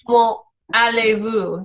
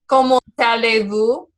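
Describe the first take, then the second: First: The final T is silent, with a pause before allez. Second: The T is pronounced and joins into allez. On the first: The speaker calls it wrong. "you wouldn't pronounce that T at the end of comment... So you kind of have to pause" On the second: The speaker calls it right. "it almost sounds like the two words are connected... And you would pronounce that T"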